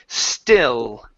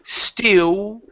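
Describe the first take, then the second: First: The final L is made with open mouth. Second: The final L is made with rounded lips. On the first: The speaker calls it right. "Use your tongue. notice my mouth. It's open" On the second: The speaker calls it wrong. "So instead of saying still"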